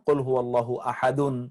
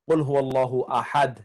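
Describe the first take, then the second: First: The last word ends with a full -un. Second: The last word ends clipped, without -un. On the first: The reader continues without stopping. "আপনি যদি না থামেন তাহলে বলবেন" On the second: The reader stops at this point. "ওয়াকফ মানে থামা। যেমন"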